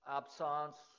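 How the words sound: The word is said with a French accent. "if you want to speak with a French accent"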